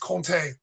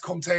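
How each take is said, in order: First: The middle consonant sounds like an n. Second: The middle consonant sounds like an m. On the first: It sounds more correct and impresses friends. "the M becomes becomes an N" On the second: It is the easier everyday way to say it. "Comté is fine. that's the way we always say it. It's easier"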